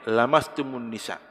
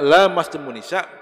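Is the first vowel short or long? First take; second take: short; long. First: The vowel after the first consonant is short. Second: The vowel after the first consonant is long. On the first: It means merely touching women. "dibacanya lamnya pendek" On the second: It means a mutual act between man and woman. "Kalau dibaca panjang"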